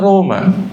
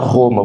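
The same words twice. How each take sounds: First: The first R is a light tapped sound. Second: The first R is a guttural, throaty sound. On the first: This is how it is said in Italian. The speaker calls it right. "você fala Roma" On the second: This is not how it is said in Italian. The speaker calls it wrong. "no italiano você não fala Roma"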